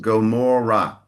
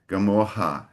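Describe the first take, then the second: First: The R is sounded as a hard R. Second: The R is sounded like a throaty H. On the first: The speaker calls it right. "R, hard R, not the Carioca ha" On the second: The speaker calls it wrong. "I heard a slight Portuguese pronunciation for Gamora. I think you said Gamorra"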